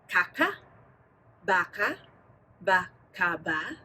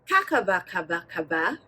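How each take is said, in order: First: The syllables are said slowly. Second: The syllables are said fast and fluently.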